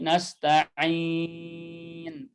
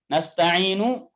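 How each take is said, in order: First: The word ends on n with no vowel. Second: The word ends with a final vowel after n. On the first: The reader stops at this word. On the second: The reading continues without stopping.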